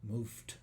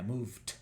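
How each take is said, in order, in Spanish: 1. La palabra termina en un sonido t sordo. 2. La palabra termina en un sonido t sordo.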